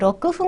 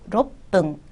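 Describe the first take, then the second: First: It is said with 'ku' and a plain 'f' sound. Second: It is said with a doubled 'p' sound. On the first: The speaker calls it wrong. "아니고" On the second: The speaker calls it right. "하시고요"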